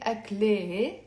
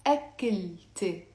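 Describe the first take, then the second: First: أكله as "ak-le-he", the T silent; أكله ending in "le-he"; wrong ending without T. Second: أكلت said "ak-kil-te", with a clear T; أكلت as a careful teacher's model, ending "-te"; T pronounced before suffix. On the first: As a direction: say أكله with an H before the last vowel. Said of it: "we're not gonna say". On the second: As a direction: sound the T and end أكلت on "-te". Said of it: "pronounce it with me". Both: Shown as a demonstration.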